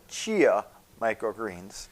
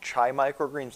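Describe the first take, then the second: First: The first word is two syllables, like chee-a. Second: The first word is one syllable, like chai. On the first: The speaker calls it right. "They're chia microgreens" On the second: The speaker calls it wrong. "I'm going to say this wrong"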